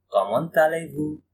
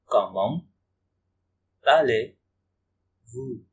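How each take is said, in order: First: Said in the usual way. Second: Comment, pause, then allez-vous stretched very slowly; very slow, deliberate classroom pronunciation; slow teaching demo. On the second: Shown as a demonstration. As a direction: break it apart and drawl allez-vous for learners. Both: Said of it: "teacher repeats phrase slowly".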